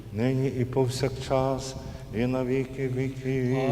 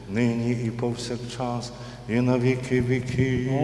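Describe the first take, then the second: The two takes are said the same way.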